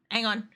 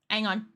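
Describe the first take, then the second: No difference in how they are said.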